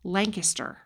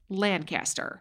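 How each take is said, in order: First: It is said the local way, like Lang-kisster. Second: It is said the Midwest way, like Lan-caster.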